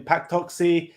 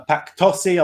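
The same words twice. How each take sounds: First: "Toxi" said with a k sound before the s; unsure pronunciation. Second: "Tossi" said without the k sound; second-guessed pronunciation. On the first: Cohost naming Spurs' best players, unsure pronunciation of "Toxi" as TOK-see. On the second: Cohost retrying a player's name, unsure pronunciation of "Tossi" as TOSS-ee. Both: Real, not acted. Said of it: "or however you pronounce his name".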